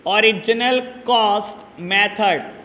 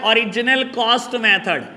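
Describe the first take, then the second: First: "original cost method" slowly, a gap between words; dictation. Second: Said in the usual way. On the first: Shown as a demonstration. Teacher repeating another name for students, slow dictation.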